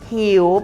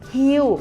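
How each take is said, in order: First: The pitch rises from low to high. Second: The pitch falls from high to low. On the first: "หิวเป็นเสียงจัตวา" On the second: "หิวเป็นเสียงโท"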